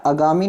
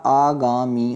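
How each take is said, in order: First: आगामी said "a-gaa-mi", short first vowel; short-a mispronunciation. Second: आगामी said slowly "aa-gaa-mee"; long-aa correction. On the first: Teacher shows the error, आगामी as "a-gaa-mi". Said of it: "आगामी नहीं होता". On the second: Teacher corrects students, आगामी as slow "aa-gaa-mee". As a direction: stretch the opening aa of आगामी. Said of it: "क्या होता?". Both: Shown as a demonstration.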